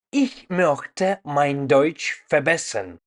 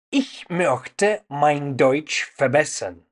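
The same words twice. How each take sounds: The two takes are said the same way.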